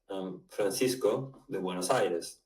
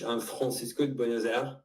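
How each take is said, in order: First: It is said in a neutral Spanish accent. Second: It is said in a French accent. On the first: "which is a neutral accent" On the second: "When I speak in French"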